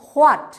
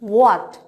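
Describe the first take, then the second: First: The word begins with an h sound. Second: The word begins with a plain w sound. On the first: The speaker calls it wrong. "Not" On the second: The speaker calls it right. "That means ও আ টা"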